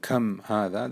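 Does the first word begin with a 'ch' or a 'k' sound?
k. The first word begins with a hard k sound. This is the standard pronunciation. "instead of saying kam hada"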